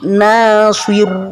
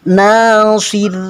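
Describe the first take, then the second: First: The r is pronounced thick and heavy. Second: The r is pronounced thin and light. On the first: The speaker calls it wrong. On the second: The speaker calls it right. "cara menyebut kita ditipiskan"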